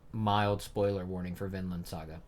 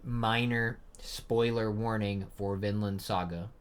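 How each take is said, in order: First: Said in the usual way. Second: Slow, measured warning; deliberate repeat. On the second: Real, not acted. Host repeats the spoiler warning to viewers, slow and deliberate. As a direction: space out each word so nobody misses it. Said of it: "I'm gonna say it one more time".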